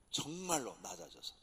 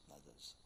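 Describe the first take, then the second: First: Said in the usual way. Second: 낮아져서 dropped to a much softer echo; quiet echo. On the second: Shown as a demonstration. 낮아져서 repeated far softer, sinking low. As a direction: let 낮아져서 sink to a soft echo.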